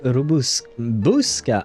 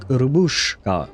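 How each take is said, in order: First: The middle consonant is a plain s sound. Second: The middle consonant is a sh sound. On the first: The speaker calls it right. "It's an S sound" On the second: The speaker calls it wrong. "I always added an H in there, like Robushka uh, with a sh"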